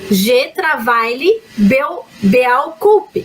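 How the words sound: It is read with Portuguese spelling-based sounds. The speaker calls it wrong. "ela vai ler assim"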